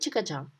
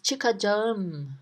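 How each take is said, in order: First: The word is pronounced in a shortened, reduced form. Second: The word is pronounced fully, with every syllable. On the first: This is how people say it in daily life. "but in real life, we don't say çıkacağım, we say çıkacağım" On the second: This is the grammatically correct form. "grammatically, it is said as çıkacağım"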